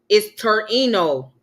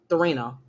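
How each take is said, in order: First: The name begins with a plain t sound. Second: The name begins with a th sound. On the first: The speaker calls it right. "so the H is silent" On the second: The speaker calls it wrong. "excuse the mispronunciation"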